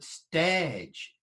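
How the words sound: The vowel is an 'air'-like sound. The speaker calls it right. "but stage with an air sound"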